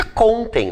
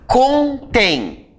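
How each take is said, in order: First: "contem" stressed on CON; accent removed. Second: "Contém" high, split into con-TÉM; accented last syllable. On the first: Teacher corrects to the unaccented word, stress on CON. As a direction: put the beat on the first syllable, CON-tem. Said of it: "sem acento fica contem". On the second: Teacher reads the word with an accent, stressed on TÉM. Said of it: "aliás, sem acento fica contem". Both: Shown as a demonstration.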